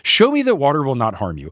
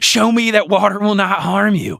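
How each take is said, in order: First: It is read in the speaker's ordinary accent. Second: It is said in a hissing Southern accent.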